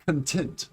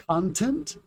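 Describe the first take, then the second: First: ConTENT, second syllable stressed; "content" as cun-TENT, first vowel reduced. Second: CONtent, first syllable stressed, rising end; "content" as CON-tent, like the noun. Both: Shown as a demonstration. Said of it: "The stress is different".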